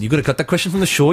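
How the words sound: It is said in a Welsh accent. The speaker calls it right. "He said it in Welsh accent"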